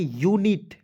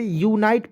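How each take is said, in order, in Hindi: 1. दूसरे अक्षर में छोटी 'ih' ध्वनि है। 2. दूसरे अक्षर में लंबी 'eye' ध्वनि है। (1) "तो क्या पढ़ेंगे, यूनिट" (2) "इस तरह क्या है, गलत है।"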